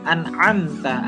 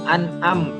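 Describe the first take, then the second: First: The throat consonant is strong and clear. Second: The throat consonant is weak and unclear. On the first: The speaker calls it right. "Belum diizharkan terlebih lagi gitu" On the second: The speaker calls it wrong. "ada yang masih kayak gitu"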